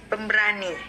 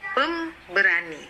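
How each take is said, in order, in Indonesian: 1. Tekanannya jatuh dekat akhir kata. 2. Tekanannya jatuh dekat awal kata. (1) "berarti kita menekankan pada kata berani" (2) "itu akan membuat pendengar menjadi terganggu"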